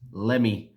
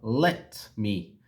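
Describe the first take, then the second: First: The words blend into one short word. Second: Both words are said fully and separately.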